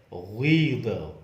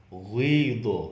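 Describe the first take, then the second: The two takes are said the same way.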